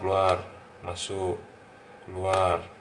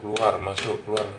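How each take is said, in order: First: The words are said very slowly. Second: The words are said quickly. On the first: "pelan sekali" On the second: "cepat lagi"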